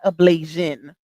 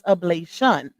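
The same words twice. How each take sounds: First: The ending is pronounced like the word 'Asian'. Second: The ending is pronounced like 'shun'. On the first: The speaker calls it wrong. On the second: The speaker calls it right. "It's T I O N"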